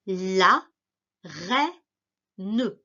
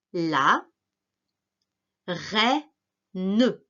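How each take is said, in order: First: «reine» dicté lentement, montée finale; mot dicté. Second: «reine» redit plus bas et détaché; répète «La reine» syllabe par syllabe; mot répété. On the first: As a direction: articule «la reine» pour l'élève. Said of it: "dictée: dicte le mot". (dicter «reine» posément) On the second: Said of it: "dictée: répète le mot". (redire «reine» en dictée) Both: Shown as a demonstration.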